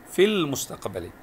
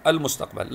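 First: في المستقبل linked as "fil-mustaqbali"; joined reading. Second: المستقبل begins "al" and stops on l; pausal form. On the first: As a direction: drop the hamza, running في into المستقبل. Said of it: "لكن وصلا لا تنطق". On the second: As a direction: read المستقبل alone, opening hamza sounded. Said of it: "وقفا، مثلًا". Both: Shown as a demonstration.

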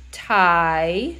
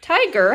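First: "Tiger" split in two with a long pause; syllable by syllable. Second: Said in the usual way. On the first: Shown as a demonstration. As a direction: sound out "Tiger" slowly, holding the first syllable. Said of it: "let's count out the syllables in tiger". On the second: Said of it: "count out the syllables in tiger".

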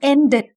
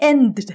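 First: "ended" in two syllables, en-ded; natural extra syllable. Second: "ended" as end-d-d, no vowel between the d's; unnatural doubled d. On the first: Teacher shows the natural form, extra syllable en-ded. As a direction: put a vowel before the final d in "ended". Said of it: "ออกเป็นธรรมชาติเป็น". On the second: Teacher shows the funny wrong form, doubled d. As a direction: stutter a second d onto "ended" without a vowel. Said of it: "ก็ตลกไปใช่ไหม". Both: Shown as a demonstration.

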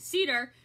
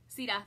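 First: Said in the usual way. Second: CEDAR with a Maine dropped R; Maine accent. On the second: Real, not acted. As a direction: say Cedar as "see-dah", Maine style. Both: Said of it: "That's my main accent".

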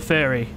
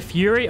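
First: Furry with a short vowel, no "yoo"; pronounced like furry. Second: Fury with a long "yoo" vowel; pronounced like fury. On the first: Asking if the double R makes it Furry, short-vowel pronunciation. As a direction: say Furry to rhyme with hurry. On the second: Asking a viewer about their name, Fury said as FYOO-ree. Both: Shown as a demonstration. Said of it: "there's double R's in that".

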